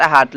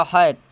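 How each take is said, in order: First: हाट with long "aa" vowel, "haat"; wrong pronunciation. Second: हैट with "ae" vowel as in English "hat"; correct pronunciation. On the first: Teacher rejects the cheap-English reading, हाट said with "aa". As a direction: read हाट with an open "aa". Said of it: "लेकिन नहीं". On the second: Teacher gives students the correct reading, हैट said with "ae". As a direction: say हैट with a front "ae". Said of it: "इसका उच्चारण शुद्ध हो जाता है". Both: Shown as a demonstration.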